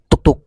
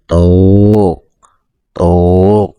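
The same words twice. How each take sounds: First: The two beats come very quickly together. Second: The two beats come slowly, far apart. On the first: This makes the length too short. "itu tidak wajar, itu terlalu cepat" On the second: This makes the length too long. "itu terlalu pelan"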